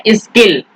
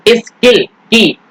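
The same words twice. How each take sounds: First: Said in the usual way. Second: Slow sounding out. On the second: Shown as a demonstration. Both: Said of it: "और यहाँ पर skilfully".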